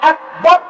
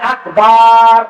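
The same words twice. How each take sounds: First: The final vowel is kept short. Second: The final vowel is drawn out long. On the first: It means God is the greatest. The speaker calls it right. "আল্লাহু আকবার বলেন" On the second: It turns the phrase into a name of Satan. The speaker calls it wrong. "অনেকে ভুল উচ্চারণ করে বলে আকবার, এটা কুফর। বার হচ্ছে শয়তানের নাম।"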